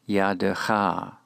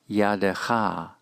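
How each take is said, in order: The two takes are said the same way.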